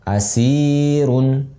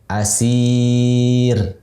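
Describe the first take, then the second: First: The middle vowel is held short, two counts. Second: The middle vowel is held long, four counts. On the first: The word is joined to what follows. "Dua dibaca asirun" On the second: The reader stops on this word. "kita baca empat asir"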